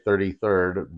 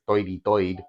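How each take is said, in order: First: It is said in a standard accent. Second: It is said in a Brooklyn/Bronx accent.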